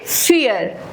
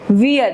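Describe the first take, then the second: First: The word begins with an F sound. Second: The word begins with a V sound. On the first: The speaker calls it right. "we call it फियर" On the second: The speaker calls it wrong. "we don't call it वियर"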